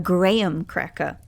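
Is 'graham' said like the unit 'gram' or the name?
name. Graham sounds like the name, Australian style.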